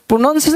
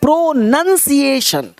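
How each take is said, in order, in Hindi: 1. दूसरा अक्षर 'nown' जैसा सुनाई देता है। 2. दूसरा अक्षर 'nun' जैसा सुनाई देता है। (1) "प्रोनाउंसिएशन नहीं" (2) "एक है प्रोनंसिएशन"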